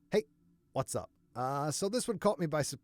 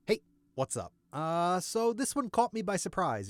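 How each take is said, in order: First: Worn-out voice. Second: Said in the usual way. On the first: Real, not acted. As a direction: push the intro through a shot throat. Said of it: "my voice is going". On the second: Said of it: "let's do an intro to compare".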